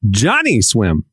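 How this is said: The stress falls on the word Johnny. "you hit the Johnny real hard"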